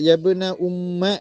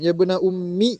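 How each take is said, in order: First: The last word ends in an 'a' vowel. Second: The last word ends in an 'i' vowel. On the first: "ஃபத்தஹா வைக்கிறது" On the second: "வகஸ்ருஹா கஸ்ர வைக்கலாம்"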